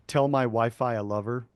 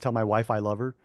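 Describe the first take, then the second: First: It is said slowly with every word separate. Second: It is said fast with words run together.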